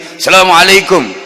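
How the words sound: The greeting is said with a high, loud pitch. "dengan nada tinggi"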